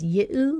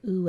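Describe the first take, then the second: First: The vowel begins with a y glide. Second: The vowel is a plain oo without a glide. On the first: "it might come out as Y-U, like it does in the word hue" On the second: "or it might just sound like oo as it does in true"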